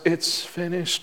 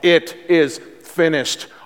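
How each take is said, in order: First: It is said weakly, like a dying breath. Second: It is said loudly, as a strong declaration. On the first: The speaker is exhausted and simply giving up. The speaker calls it wrong. "finally dying and giving his last breath and he eked out those final words" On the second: The speaker proclaims the task fully accomplished. The speaker calls it right. "he said it with a loud voice, which means he is declaring once and for all"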